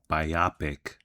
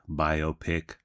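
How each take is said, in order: First: It is said the way Canadians say it. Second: It is said in a non-Canadian way.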